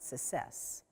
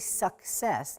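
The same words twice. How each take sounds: First: A sound in the middle cluster is dropped. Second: The full middle consonant cluster is pronounced. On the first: The speaker calls it wrong. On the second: The speaker calls it right. "it's really"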